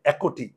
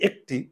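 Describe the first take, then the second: First: একটি said as three syllables, "ækoti"; একটি with the k voiced out as "ko"; wrong vowel-ending pronunciation. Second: একটি said as two syllables, "ek-ti"; একটি with no vowel after k; silent-vowel pronunciation. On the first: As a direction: sound an extra "o" after the k in একটি. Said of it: "উচ্চারণ হবে". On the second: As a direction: stop the k dead before ti in একটি. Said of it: "আমরা বলি একটি". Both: Shown as a demonstration.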